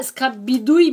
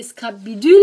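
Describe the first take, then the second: First: Scrap bidouille with a clear ou, bi-DOU-ille; her own word. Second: Scrap bidule with the u of tu, bi-DULE; correct form. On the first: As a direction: say bidouille as bi-dou-ye, ending in a y glide. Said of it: "c'est mon petit accent". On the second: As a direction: say bidule ending in a plain -le, no y glide. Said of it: "c'est pas scrap bidouille". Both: Shown as a demonstration.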